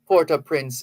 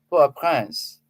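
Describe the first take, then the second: First: The name is said with English sounds. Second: The name is said with French sounds. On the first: "That's the anglicized pronunciation" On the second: "If you're going to speak French, then you would have to say"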